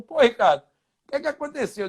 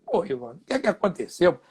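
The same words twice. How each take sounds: First: Lightly voiced teammate, pitch lifted; Ivan Zamorano. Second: Said in the usual way. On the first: Roommate asking what happened, lightly imitated higher voice. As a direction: ask it higher, as the puzzled other man. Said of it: "ele falou". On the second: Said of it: "Eu digo".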